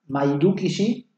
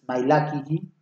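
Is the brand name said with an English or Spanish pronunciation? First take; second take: Spanish; English. First: The name is pronounced with Spanish sounds. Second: The name is pronounced with English sounds. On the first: "Lo voy a decir primero en español, fonéticamente" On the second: "y después voy a pronunciar en inglés para tu deleite"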